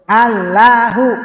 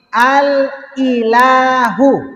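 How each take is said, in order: First: The i vowel is dropped, giving a double l. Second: An i vowel is heard after the l. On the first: This is the contracted form in normal use. "I-nya hilang" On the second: This is the original underlying form. "Itu aslinya"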